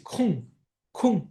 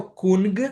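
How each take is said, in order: First: ΚΟΥΓΚ ending in nasal ng, no g release; correct nasal ending. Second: ΚΟΥΓΚ with a released hard g at the end; wrong hard g. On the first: Teacher showing how it is said, nasal ending. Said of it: "έτσι". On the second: Teacher showing what not to say, hard final g. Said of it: "Δεν λέω κουγκ". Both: Shown as a demonstration.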